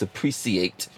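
It is said in a posh British-style pronunciation.

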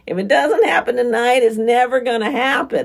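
It is said in a whiny, nasal voice.

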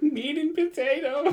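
It is said in a scared way.

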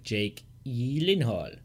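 The name is said with a dramatic Swedish pronunciation. This is the genuine original pronunciation. "it's like a Swedish name. It legitimately is like"

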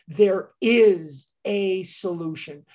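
The word 'is' is stressed. A solution really does exist. "emphasis on the is very, very promising"

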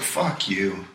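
It is said in a relaxed, laid-back way.

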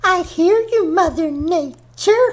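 It is said in a dull, flat, heavy way.

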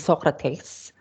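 It is said in a Filipino accent.

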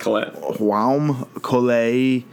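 The name is said with a French-style pronunciation. "I'm going to say it's French"

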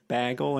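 The word has a Wisconsin accent vowel. The speaker calls it wrong. "I normally say bagel"

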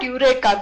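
The word is said with an English pronunciation. The speaker calls it wrong. "that's the English pronunciation"

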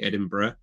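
The ending is a short, reduced 'bruh' sound. This is how British people say it. The speaker calls it right. "we can say Edinburgh"

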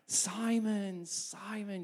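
It sounds warm and loving.

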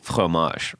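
It is said with a French pronunciation. This is how it is supposed to be said. The speaker calls it right. "but you're supposed to go like fromage"

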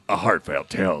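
It is said in a deep, dramatic trailer voice.

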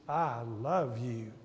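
It is said in a warm, heartfelt tone. The speaker really means it. "Second one, you really mean it"

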